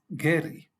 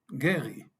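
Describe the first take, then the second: First: The R is made with the tongue tip. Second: The R is made in the throat. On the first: The name is said the Spanish way. "R con la lengua" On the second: The name is said the Hebrew way. "la R con eh, la garganta"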